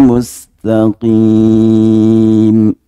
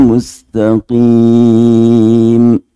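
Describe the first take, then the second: Both takes have the same delivery.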